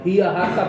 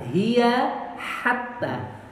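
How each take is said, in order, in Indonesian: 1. Kedua kata sama-sama diawali h biasa. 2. Kedua kata diawali bunyi h tenggorokan yang berbeda. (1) "pakai h dua-duanya" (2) "hiya pakai tenggorokan bagian bawah... hatta tenggorokan bagian tengah"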